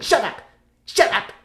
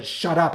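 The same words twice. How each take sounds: First: High, sudden "shut up"; comic annoyed "shut up". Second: Said in the usual way. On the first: Acted. Actor to annoying sidekick, high comic annoyance. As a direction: snap "shut up" as a stage bit. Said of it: "I went". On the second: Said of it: "didn't tell him to shut up".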